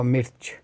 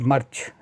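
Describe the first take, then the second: First: "mirch" with a short i vowel; "mirch", the i-vowel variant. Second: "march" with an a vowel for mirch; "march", the customary a-vowel variant of mirch. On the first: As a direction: say "mirch" with i, as opposed to march. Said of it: "can be called march or mirch". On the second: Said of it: "mirch can be called march". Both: Shown as a demonstration.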